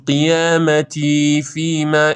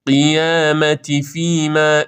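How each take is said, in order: First: قیامتی فیما with "tii" dragged; too-long final vowel in قیامتی; wrong overlong i. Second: Slow recited قیامتی فیما with brief "ti"; measured قیامتی فیما, short ti; correct short i. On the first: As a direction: stretch the end of قیامتی before فیما. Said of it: "این اشتباست". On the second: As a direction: keep the end of قیامتی to one beat. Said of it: "این درسته". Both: Shown as a demonstration.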